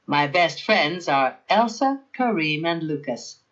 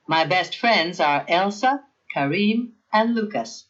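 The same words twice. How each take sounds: First: "Kareem and Lucas" run straight together, with no pause before "and", falling at the end; no comma before and. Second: "Elsa, Kareem, and Lucas" with a clear pause after "Kareem" before "and"; comma before and. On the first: Teacher showing the class a list with no comma before and. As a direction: read "Kareem, and Lucas" as one smooth run that drops at the end. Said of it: "but not in the bottom sentence".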